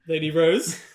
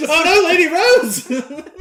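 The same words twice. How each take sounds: First: Tentative questioning call with a rise. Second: High, loud, drawn-out mock dismay; mock horrified cry. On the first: Acted. Guards expecting Lady Rose at the carriage, questioning. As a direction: call her name as a question. Guards look for missing princess. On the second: Guards finding Lady Rose crushed, hammed-up horror.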